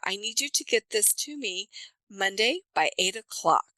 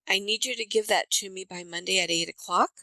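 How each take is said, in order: First: The pitch comes down firmly at the end. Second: The pitch drifts upward, unsettled at the end. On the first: The speaker means it and is serious. The speaker calls it right. "it comes down and it says, I mean it" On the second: It sounds optional, like a request. The speaker calls it wrong.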